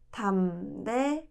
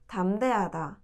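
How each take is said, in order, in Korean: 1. 이 단어는 천천히, 또박또박 발음했어요. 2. 이 단어는 자연스러운 속도로 발음했어요.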